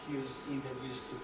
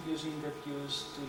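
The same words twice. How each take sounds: The two takes are said the same way.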